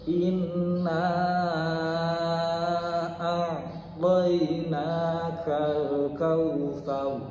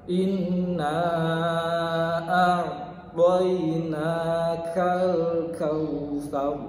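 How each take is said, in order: No difference in how they are said.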